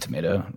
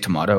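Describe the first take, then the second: First: Tomato is said with an American-style vowel. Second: Tomato is said with a British-style vowel. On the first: This is the usual pronunciation. "rather than tomato" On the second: This is the occasional pronunciation. "I'll say tomato every now and then"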